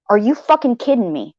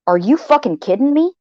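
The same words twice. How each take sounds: First: The same question dropped to a falling, deadpan tone; flat disbelief. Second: Higher, rising disbelief on the whole question; a mock-furious rising "are you kidding me"; incredulous outburst. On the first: Retold or imitated. Repeating her thought about Purple's message, a flat falling disbelief. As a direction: repeat it flatly, the anger sinking in. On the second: To herself about Purple's message, a higher incredulous rising outburst. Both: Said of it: "What I was thinking was this".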